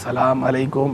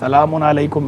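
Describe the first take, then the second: First: Salam runs straight into alaikum without an ending. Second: Salam ends with an added un before alaikum. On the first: The speaker calls it wrong. "इस तरह नहीं" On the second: The speaker calls it right. "सलामुन अलैकुम भी चलेगा"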